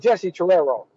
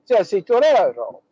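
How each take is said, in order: First: The name is said with an American accent. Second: The name is said with an Italian accent.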